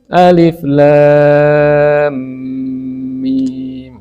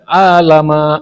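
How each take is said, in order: First: Each letter is said separately by its name. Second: The letters are run together into one word. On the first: The speaker calls it right. "harusnya membaca sesuai bunyi hurufnya" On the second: The speaker calls it wrong. "kalau dibaca sesuai harokatnya, ya alif lam mim itu bisa dibaca alama"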